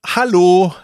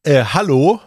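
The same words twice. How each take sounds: First: Louder, higher hello; raised, questioning shout for attention; insistent repeated call. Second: Hesitant, questioning hello; polite opening call; first tentative call. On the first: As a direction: call out to someone who hasn't heard you. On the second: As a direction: try to get a stranger's attention, raised pitch and volume. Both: Retold or imitated. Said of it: "Er hat's noch nicht gehört".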